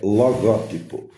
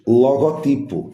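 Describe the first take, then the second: First: The stress falls on the second syllable. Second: The stress falls on the third syllable. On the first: The speaker calls it right. "a forma correta de dizer é logótipo" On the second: The speaker calls it wrong. "Muita gente também diz logotipo"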